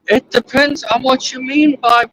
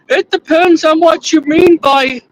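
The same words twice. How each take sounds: First: It is said in the speaker's ordinary voice. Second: It is said in a put-on imitation voice. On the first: The speaker calls it wrong. "You you've got to do the voice, bro" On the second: The speaker calls it right. "That's better"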